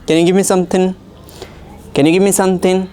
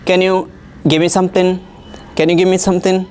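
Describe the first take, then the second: No difference in how they are said.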